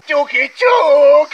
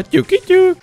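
First: Ťuky, ťuk drawn out very slowly and much higher; slow teasing knock knock. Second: Much higher, sing-song Ťuky, ťuk; playful knock knock. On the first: Knocking again at the bush, stretching it out very slowly. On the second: Checking a bush for enemies, a high teasing knock knock. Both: Pretend.

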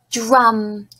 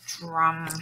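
First: Said in the usual way. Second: Lower, softer puppet repeating; quiet puppet echo. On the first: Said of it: "repeat the word after me". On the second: Shown as a demonstration. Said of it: "You and Steve will repeat".

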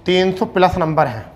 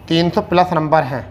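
The two takes are said the same way.

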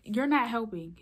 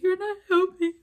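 First: Firm retold objection, a bit louder; firm protest. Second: High, loud retold outburst; exasperated yell. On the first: Teen telling the yelling lady off, firm but contained. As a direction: push back with stress on "not". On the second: Teen snapping at the yelling lady, full-voiced yell. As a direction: yell it out in exasperation, pitch jumping up.

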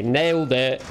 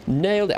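First: Said in the usual way. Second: Higher, proud mock-triumphant "Nailed it". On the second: Shown as a demonstration. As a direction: crow it like a fake victory.

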